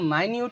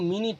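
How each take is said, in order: First: The first syllable sounds like 'my'. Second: The first syllable sounds like 'mih'. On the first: The speaker calls it right. "এটা উচ্চারণ হচ্ছে মাইনিউট" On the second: The speaker calls it wrong. "এটার উচ্চারণ কিন্তু মিনিট না"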